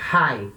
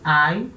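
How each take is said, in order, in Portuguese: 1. A vogal começa com som de h. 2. A vogal começa sem som de h. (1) "espírito forte" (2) "espírito fraco"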